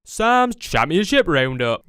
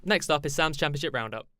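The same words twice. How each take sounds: First: Loud slow jingle voice; announcer voice. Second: Said in the usual way. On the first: Pretend. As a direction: belt it like a show title card. Repeated as jingle.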